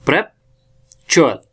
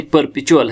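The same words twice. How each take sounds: First: "प्रेपचुअल" slowly, opening with "prep"; mispronounced word. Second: "परपेचुअल" opening with "per", not "prep"; corrected pronunciation. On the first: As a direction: say "प्रेपचुअल" in two parts, prep-chual. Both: Shown as a demonstration. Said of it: "नहीं, परपेचुअल है".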